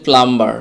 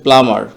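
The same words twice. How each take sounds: First: প্লাম্বার with b sounded, "plam-bar"; common mispronunciation. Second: প্লামার with silent b, "pla-mar"; correct pronunciation. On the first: Teacher quotes the usual saying, b sounded. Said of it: "এই শব্দটি আমরা প্রায় বলে থাকি". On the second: Teacher corrects for viewers, silent b. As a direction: go from m straight to the vowel in প্লামার. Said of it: "এটা মূলত হচ্ছে". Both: Shown as a demonstration.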